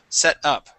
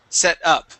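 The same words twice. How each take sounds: First: The first vowel is a short 'e' sound. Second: The first vowel is a short 'e' sound.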